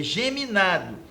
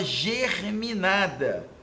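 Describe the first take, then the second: First: Geminado said with no R, ge-mi-NA-do; the correct geminado, plainly corrected. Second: Germinada said with an extra R, ger-mi-NA-da; the common mistaken germinada with the R in ger; mispronounced germinada; wrong germinada. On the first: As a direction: geminado without the R. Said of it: "é geminado". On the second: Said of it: "mas não é germinado". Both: Shown as a demonstration.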